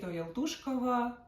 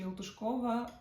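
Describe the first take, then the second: First: «Ялтушкова» з наголосом на «ту»; наголоси другий склад у «Ялтушкова»; наголос у назві. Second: «Ялтушкова» з наголосом на «ко»; перенеси наголос у «Ялтушкова» ближче до кінця; наголос у назві. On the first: («Ялтушкова»: наголос на складі «ту») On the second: («Ялтушкова»: наголос на складі «ко») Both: Shown as a demonstration. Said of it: "У мене завжди проблеми з наголосами".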